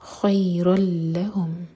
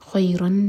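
First: The n sound merges fully into the l. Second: A clear n sound ends the word. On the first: The speaker calls it right. "یہاں پر نون کا ساؤنڈ بالکل نہیں آئے گا" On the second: The speaker calls it wrong. "خیرن نہیں"

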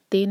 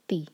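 First: The vowel is an open 'ay' sound. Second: The vowel is a clear 'ee' sound. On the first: The speaker calls it wrong. "تے نہیں" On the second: The speaker calls it right.

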